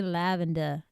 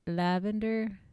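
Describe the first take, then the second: First: "lavender" with an Australian open "-duh" ending; Australian-style "lavender"; Australian accent. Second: Said in the usual way. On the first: Shown as a demonstration. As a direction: try "lavender" in Australian, no final r. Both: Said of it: "if you wanna do Australian".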